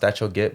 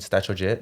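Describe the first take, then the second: First: The last word begins with a hard g sound. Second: The last word begins with a j sound. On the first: This is how the name is meant to sound. "I know it's pronounced Statcho Git" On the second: This is the habitual way of saying it. "I'm so used to saying Statcho Jit"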